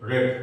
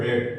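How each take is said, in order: First: The vowel is short, like in 'bed'. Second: The vowel is short, like in 'bed'.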